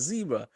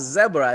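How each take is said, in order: First: The word has an American pronunciation. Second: The word has a South African pronunciation. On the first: The speaker calls it right. "it's a zebra" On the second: The speaker calls it wrong. "no, it's not a zebra"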